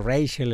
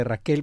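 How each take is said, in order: First: "Rachel" said the English way, REY-chel; English pronunciation. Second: "Raquel" said the Spanish way, ra-KEL; Spanish pronunciation. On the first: Anchor admitting English names are hard, "Rachel" in English pronunciation. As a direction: say "Rachel" with a stressed "ray" and a ch sound. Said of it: "nos cuesta medio trabajo". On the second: Anchor contrasting a translated name, "Raquel" in Spanish pronunciation. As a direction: say "Raquel" with a k sound, stressed on the last syllable. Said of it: "No caben aquí las traducciones". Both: Shown as a demonstration.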